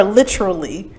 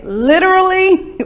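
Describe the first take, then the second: First: "literally" run together as LIT-chruh-lee; "literally" squeezed to LITCH-rully; pronunciation contrast. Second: "Literally" in four syllables, LIT-er-uh-lee; "Literally" with a clear T before "er"; pronunciation contrast. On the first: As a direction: turn the T of "literally" into a CH. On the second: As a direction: sound every syllable of "Literally". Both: Shown as a demonstration. Asks which pronunciation is used.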